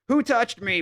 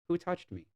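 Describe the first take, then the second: First: It sounds angry and accusing. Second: It sounds curious and eager.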